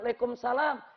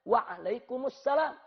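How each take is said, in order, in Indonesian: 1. Jawabannya dipendekkan dengan cara Betawi setempat. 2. Jawabannya diucapkan lengkap dengan setiap suku katanya.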